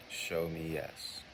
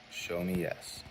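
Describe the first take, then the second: First: "Show me yes" said slower and quieter, leaning on show; gentle slowed ask; slow, softer ask. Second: Said in the usual way. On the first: Shown as a demonstration. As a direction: ease the phrase out, softly. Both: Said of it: "You're going to ask".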